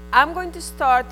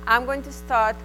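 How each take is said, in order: Both takes have the same delivery.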